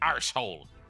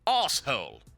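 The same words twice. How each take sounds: First: It is said in a rough, rustic, common accent. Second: It is said in a posh, high-class accent. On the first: "in a very common, very plebeian kind of fashion" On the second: "in a rather amusing and high-class fashion"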